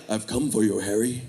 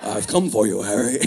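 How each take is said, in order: First: Low, soft villain voice; a hint of a menacing dark lord; Voldemort voice. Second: Low villain voice breaking into a laugh; Voldemort voice, laughing. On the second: Pretend. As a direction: menace cracked by giggles. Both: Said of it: "Voldemort out at night ... like".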